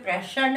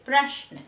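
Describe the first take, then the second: First: The श is said as a full syllable. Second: The श is said as a half sound. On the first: The speaker calls it wrong. "प्रश श पूरा नहीं होता है" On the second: The speaker calls it right. "हम लोग आधा बोलते हैं"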